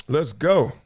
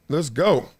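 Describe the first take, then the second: No difference in how they are said.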